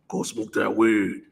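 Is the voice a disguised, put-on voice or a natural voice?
disguised. It is said in a put-on, menacing voice. The temptation openly sounds evil. The speaker calls it wrong. "A demon ain't gonna come talking to you like"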